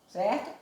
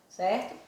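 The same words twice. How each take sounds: No difference in how they are said.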